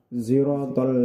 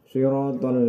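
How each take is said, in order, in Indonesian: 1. Diawali dengan s yang bercampur z. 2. Diawali dengan bunyi s emfatis. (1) "ismam, gabungan antara shad dengan za" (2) "tetap dengan huruf shad"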